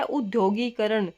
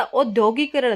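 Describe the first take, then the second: First: उद्योगीकरण said with a short उ at the start; उद्योगीकरण, opening on a short उ; correct form. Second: औद्योगिकरण said with औ at the start; औद्योगिकरण, opening on a long औ; wrong form. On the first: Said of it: "शब्द होता है उद्योगीकरण". (उद्योगीकरण उ से शुरू) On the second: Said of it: "वो हमारा रॉन्ग होता". (औद्योगिकरण औ से शुरू) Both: Shown as a demonstration.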